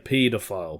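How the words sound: It is said with a British pronunciation.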